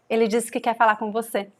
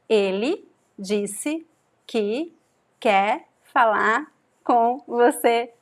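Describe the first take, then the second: First: The sentence is spoken at a faster pace. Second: The sentence is spoken at a slower pace.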